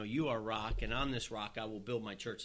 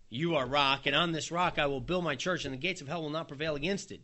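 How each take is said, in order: First: Said in the usual way. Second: A ringing promise; declaring. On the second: Acted. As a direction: announce it boldly to Peter. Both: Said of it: "You know".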